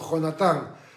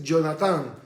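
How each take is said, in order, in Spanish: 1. El primer sonido es una J española gutural. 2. El primer sonido es suave, no gutural. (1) "sino Jonatán" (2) "el nombre no es Jonatán"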